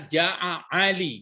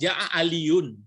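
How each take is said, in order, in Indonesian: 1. Nama ini berakhir biasa, tanpa bunyi -un. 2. Nama ini berakhir dengan tambahan bunyi -un. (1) "tidak menerima baris berat ya, ini dibaca Ja'a Ali" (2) "aslinya kan Ja'a Aliun"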